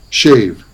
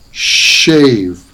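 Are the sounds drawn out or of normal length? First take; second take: normal; drawn out. First: The sounds have their normal everyday length. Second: The sounds are held longer than usual. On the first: "what those words sound like in everyday pronunciation" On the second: "I'm making the sounds longer than they usually are"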